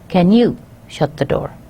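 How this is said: It is asked in a nice, polite way.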